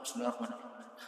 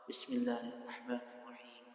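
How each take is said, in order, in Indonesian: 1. Frasa ini dibaca cepat dan terburu-buru. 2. Frasa ini dibaca pelan dan tenang. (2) "cara ibadahnya bacanya pelan-pelan"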